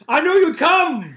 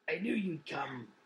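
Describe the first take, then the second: First: It is said in a full, unhushed voice. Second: It is said in a hushed, quiet voice.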